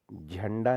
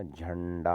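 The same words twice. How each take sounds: First: झंडा with a short plain n; wrong n sound. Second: झंडा with a held curled-tongue ṇ; retroflex ण. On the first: Teacher showing the error, झंडा with short n. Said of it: "नहीं होता". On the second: Teacher correcting it, झंडा with full ण. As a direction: linger on the nasal in झंडा. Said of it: "होता है". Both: Shown as a demonstration.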